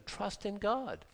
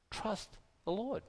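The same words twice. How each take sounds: First: Hushed and slow, falling at the end; slow quiet sincere urging; slow soft plea. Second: Hushed, gentle, rising at the end; quiet heartfelt urging; soft plea. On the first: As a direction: draw it out gently, settling the point. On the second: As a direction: say it softly, like a tender encouragement. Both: Real, not acted. Softly urging listeners to trust.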